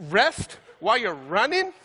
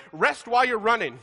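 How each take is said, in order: First: Slow, rising, disbelieving question; incredulous echo. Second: Upbeat coach shouting across the track; coach's encouragement. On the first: Shown as a demonstration. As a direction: repeat it as if it makes no sense. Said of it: "incredulous repeat". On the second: Retold or imitated. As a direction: quote the coach like a pep call. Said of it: "he yells over at me".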